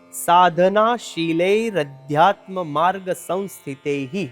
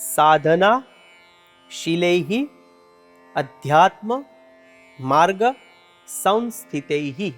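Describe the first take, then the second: First: The words are joined with an r between them. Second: The words are separate with an h between them. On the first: The words are joined into one phrase. "આખો શબ્દ ભેગો થઈ આ પ્રમાણે ઉચ્ચારણ કરવાનું છે" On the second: The words are read separately. "છૂટા છૂટા પાંચ શબ્દો સમાયેલા છે"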